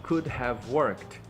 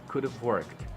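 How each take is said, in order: First: 'Could' and 'have' are said as separate words. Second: 'Could' and 'have' are run together into one. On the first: "eles ensinam você a falar justamente desse jeito" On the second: "Ele vai juntar o could have"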